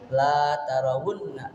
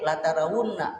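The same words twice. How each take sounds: First: The vowel in la is drawn out long. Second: The vowel in la is short. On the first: You will not see it. The speaker calls it wrong. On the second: Truly you will see it. The speaker calls it right. "La-nya itu lam taukid"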